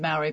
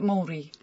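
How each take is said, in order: First: Maori is said with an English-speaker pronunciation. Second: Maori is said with the Maori people's pronunciation. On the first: "it is Maori" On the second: "the Maoris pronounce it Maori"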